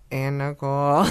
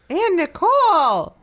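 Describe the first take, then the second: First: It is said at a normal, flat volume. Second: It is said very loudly, almost screamed.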